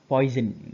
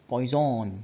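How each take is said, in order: First: It is said like the English word poison. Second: It is said with a French-style pronunciation. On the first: The speaker calls it wrong. "not poison" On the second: The speaker calls it right. "Please excuse my excuse my French. It's poison"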